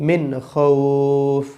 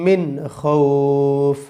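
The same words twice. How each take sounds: Both takes have the same delivery.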